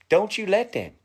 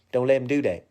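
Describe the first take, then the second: First: "Don't you let them" higher with "let" hit hard and falling; insistent warning. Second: Said in the usual way. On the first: Shown as a demonstration. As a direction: press the word "let" like a firm command. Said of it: "Don't let 'em do that".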